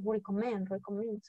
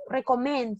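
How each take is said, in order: First: Recommend said the English way, ri-ko-MEND, soft; pronunciación correcta. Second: Recommend read as written, Spanish re-co-men; spelling pronunciation. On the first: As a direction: say recommend like the audio dictionary. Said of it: "escuchas la pronunciación y dices". (recommend dicho a la inglesa, suave) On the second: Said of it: "Recommend se escribe". (Recommend leído como se escribe) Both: Shown as a demonstration.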